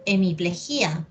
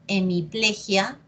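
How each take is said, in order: First: Hemiplegia said hemiple-GÍ-a; stress on GÍ. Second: Hemiplegia said hemi-PLE-gia; stress on PLE. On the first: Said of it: "o le dio". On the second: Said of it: "Decimos que le dio". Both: Shown as a demonstration.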